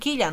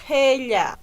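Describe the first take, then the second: First: The first vowel sounds like "i". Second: The first vowel sounds like "e". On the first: The speaker calls it wrong. "No decían quilla" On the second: The speaker calls it right. "Y pronuncio gella"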